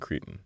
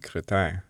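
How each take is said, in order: First: The name is pronounced the plain English way. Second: The name is pronounced the French way. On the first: "but probably Creton" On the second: "in the French way, it would be Cretin"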